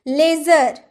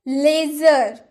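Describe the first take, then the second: Both takes have the same delivery.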